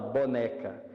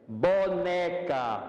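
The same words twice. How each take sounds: First: The vowels are short and plain. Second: The vowels are stretched and drawn out.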